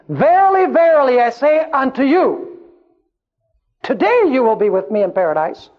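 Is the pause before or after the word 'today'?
before. The pause comes before the word today.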